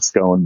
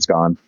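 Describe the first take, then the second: First: The vowel does not rhyme with gone. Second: The vowel rhymes with gone. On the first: "they still call it a, a scone" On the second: "it's usually scone, like gone"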